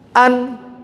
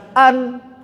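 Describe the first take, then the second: First: The word ends abruptly on the n sound. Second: The word ends abruptly on the n sound.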